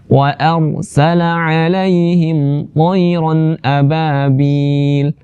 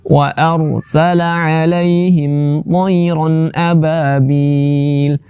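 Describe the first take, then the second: Both takes have the same delivery.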